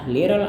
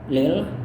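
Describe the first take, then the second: First: The word is said in full, two syllables. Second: The word is shortened to one quick syllable. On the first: "entah little atau lil" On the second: "entah little atau lil"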